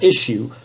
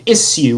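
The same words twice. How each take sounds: First: The word is said in a plain way. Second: The word is said in a posh way. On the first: The speaker calls it right. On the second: The speaker calls it wrong.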